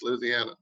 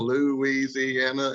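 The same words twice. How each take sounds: First: Some syllables of the word are run together. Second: Every syllable of the word is pronounced separately. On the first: The speaker calls it right. "It's Louisiana. That's what it is" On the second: The speaker calls it wrong. "Every syllable, most people Louisiana, and it's not"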